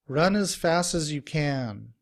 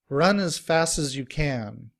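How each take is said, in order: First: Words run together quickly with reduced vowels. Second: Words run together quickly with reduced vowels.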